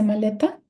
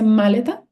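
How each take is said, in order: First: The stress is on the middle syllable. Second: The stress is on the first syllable. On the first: The speaker calls it right. "Le is a maleta" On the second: The speaker calls it wrong. "Ma is a maleta"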